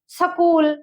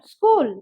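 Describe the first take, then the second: First: A short vowel is inserted between s and k. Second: The s and k join with no vowel. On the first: The speaker calls it wrong. "सकूल ये ऐसे बोलने की नहीं है" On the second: The speaker calls it right. "ये होता है स्कूल"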